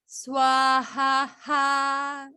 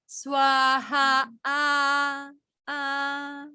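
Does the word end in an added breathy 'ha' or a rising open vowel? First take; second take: breathy ha; rising vowel. First: It ends with an extra breathy 'ha' sound. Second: It ends on an open vowel rising in pitch. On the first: The speaker calls it wrong. "You see people go swaha ha like like a visarga" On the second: The speaker calls it right. "This is just the intonation is going is going up"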